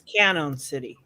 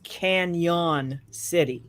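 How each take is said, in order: First: The first word sounds like 'cannon', without a y-sound. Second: The first word sounds like 'canyon', with a y-sound. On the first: "I read it as Cannon City" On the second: "I never read it as Canyon City"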